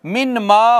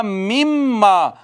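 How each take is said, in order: First: Said in the usual way. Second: "मिम मा" slow, with a long held double m; इदगाम के साथ. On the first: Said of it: "मिन मा हो जाएगा मिम मा". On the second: Shown as a demonstration. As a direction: hum the m of "मिम मा", no n. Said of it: "direct मीम के साथ पढ़ेंगे". ("मिम मा" में नून की जगह सीधे मीम पर शद)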